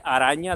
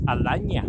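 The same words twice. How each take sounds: First: Said in the usual way. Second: "alaña" with an L for the R; loud "alaña", R turned into L; L in place of R. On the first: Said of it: "en lugar de decirle araña". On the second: Shown as a demonstration. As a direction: say "alaña", swapping the R for an L. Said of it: "no puede pronunciar la R".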